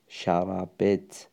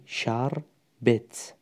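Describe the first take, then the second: First: شربت drawn out as "sha-ra-bet", with a vowel after the r; slow three-syllable شربت, "sha-ra-bet"; vowelled second letter. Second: شربت drawn out as "shar-bet", no vowel after the r; slow two-syllable شربت, "shar-bet"; second letter silent. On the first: Teacher showing the I and you form, شربت slowly as "sha-ra-bet". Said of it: "من هستم، تو هستی". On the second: Teacher showing the she-form, شربت slowly as "shar-bet". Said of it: "حرف دوم رو ساکن کردیم". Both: Shown as a demonstration.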